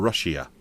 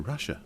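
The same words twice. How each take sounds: First: It is said with an extra 'ee' vowel. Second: It is said without an extra 'ee' vowel. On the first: The speaker calls it right. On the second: The speaker calls it wrong.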